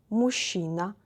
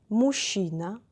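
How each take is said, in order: Both takes have the same delivery.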